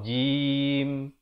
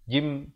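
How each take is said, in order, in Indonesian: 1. M akhir ditahan dengan bibir tertutup. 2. Bibir terbuka dengan cepat setelah m akhir. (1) "Ditutupkan rapat mulut sebentar" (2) "Jangan cepat sangat buka jim. ... Tak mau"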